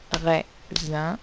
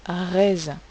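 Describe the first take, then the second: First: Raisin with a rise, split into ré and zin; syllables counted. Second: Said in the usual way. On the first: Shown as a demonstration. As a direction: say raisin slowly in two syllables. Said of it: "j'entends deux syllabes". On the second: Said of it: "teacher says the word".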